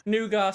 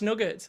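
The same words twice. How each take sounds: First: "nougat" as NOO-gah, silent t; "nougat" with an open ending and no final t; nougat pronunciation. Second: "nugget" as NUG-it; "nugget" rhyming with "drugget", t pronounced; nugget pronunciation. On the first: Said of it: "How am I pre-, pronouncing". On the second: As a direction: say "nugget" with a short u and sounded t. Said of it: "nougat slash nugget". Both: Shown as a demonstration.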